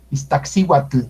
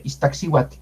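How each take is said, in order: First: Iztaccíhuatl with a clearly released tl; Iztaccíhuatl with a distinct final tl; audible tl. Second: Iztaccíhuatl with the tl nearly silent; Iztaccíhuatl trailing into a light tl; soft tl. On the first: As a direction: let the L of the tl ring at the end of Iztaccíhuatl. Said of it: "Ahí se nota más ese tl". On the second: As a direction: soften the end of Iztaccíhuatl to a whispered L. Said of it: "es suave". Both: Shown as a demonstration.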